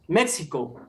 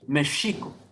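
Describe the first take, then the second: First: The name is said the usual everyday way. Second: The name is said the original native way. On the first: This is the name the country was given. The speaker calls it wrong. "They they named the this territory" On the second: This is the original name of the land. The speaker calls it right. "the real pronunciation is Mexico"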